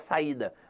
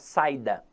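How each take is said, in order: First: The a and i are separate syllables. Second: The a and i merge into one syllable. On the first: The speaker calls it right. "não vai ficar a palavra saída" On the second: The speaker calls it wrong. "vai ficar saída. E para evitar essa ditongação"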